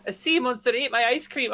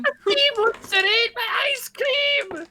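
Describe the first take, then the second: First: Lightly put-on Scottish accent; a hint of Scottish brogue. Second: High, slow, hammed-up Scottish accent. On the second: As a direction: overdo the Scottish brogue. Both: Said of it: "my terrible Scottish accent".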